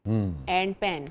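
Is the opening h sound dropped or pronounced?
dropped. The h is dropped and f becomes p. "Pashto में ये होगा एंड पेन"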